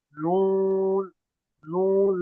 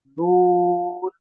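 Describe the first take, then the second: First: نون drawn out with the sound in the nose; nasalised noon. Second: Long slow نون, vowel kept out of the nose; noon without nasality. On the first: Teacher showing a common mistake, nasal نون. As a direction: push the long vowel of نون into the nose. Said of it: "اکثر لوگ ناک میں آواز لے جاتے". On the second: Teacher correcting the mistake, long un-nasal نون. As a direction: stretch نون through the open mouth. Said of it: "ناک میں نہیں جائے گی آواز". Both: Shown as a demonstration.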